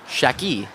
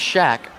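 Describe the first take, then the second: First: The surname ends with an added 'ee' sound. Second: The surname ends in a bare 'k' sound. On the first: The speaker calls it right. "it's actually" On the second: The speaker calls it wrong. "mispronouncing the name this entire game"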